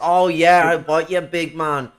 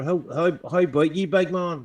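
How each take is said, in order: First: Scouse greeting. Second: Northern Irish greeting. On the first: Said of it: "that also exists in Liverpool". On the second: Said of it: "That's in the north". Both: Shown as a demonstration.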